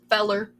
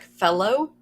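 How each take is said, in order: First: The word ends in an 'er' sound. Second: The word ends in a clear 'oh' sound. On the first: This is the local Kentucky dialect form. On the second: This is the standard pronunciation.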